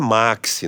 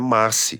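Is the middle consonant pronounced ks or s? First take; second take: ks; s. First: The middle consonant is pronounced as ks. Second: The middle consonant is pronounced as s. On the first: The speaker calls it wrong. "muita gente diz como maxi. E não é maxi" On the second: The speaker calls it right.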